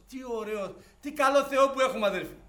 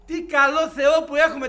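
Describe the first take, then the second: First: First praise. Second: Louder repeat. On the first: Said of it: "first praise". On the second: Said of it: "repeated louder". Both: Real, not acted.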